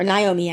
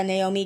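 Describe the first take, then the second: First: "Naomi" opening like "nigh"; corrected name pronunciation. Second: "Naomi" opening like "nay"; alternate name pronunciation. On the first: Host correcting herself on a character's name, "Naomi" said with "nigh". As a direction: say "Naomi" with a "nigh" first syllable. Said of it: "how we pronounce her name". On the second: Host naming a character to viewers, "Naomi" said with "nay". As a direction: say "Naomi" with a "nay" first syllable. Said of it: "I think is how we pronounce". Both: Shown as a demonstration.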